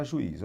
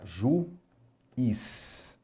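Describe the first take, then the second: First: Said in the usual way. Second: "Juiz" split as Ju... iz, with a pause; syllable by syllable. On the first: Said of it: "Vamos ver aqui com o juiz". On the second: Shown as a demonstration. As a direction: break "Juiz" slowly into two separate syllables. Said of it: "olha lá". ("Juiz" sílaba por sílaba: Ju... iz)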